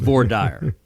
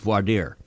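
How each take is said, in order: First: The term is said with English-like sounds. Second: The term is said with French-like sounds. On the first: This is how Texas says it. "In Texas, it's voir dire" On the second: This is how other parts of the country say it. "more Frenchified pronunciations"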